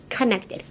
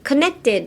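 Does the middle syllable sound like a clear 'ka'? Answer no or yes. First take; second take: yes; no. First: The middle syllable has a clear ka sound. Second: The middle syllable lacks a clear ka sound. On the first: The speaker calls it right. "かですね。かで pronounce してくれたらいけます。" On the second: The speaker calls it wrong. "connected じゃなくて"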